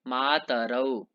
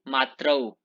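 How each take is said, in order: First: A short vowel separates the t and r. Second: The t and r join with no vowel between. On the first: The speaker calls it right. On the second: The speaker calls it wrong.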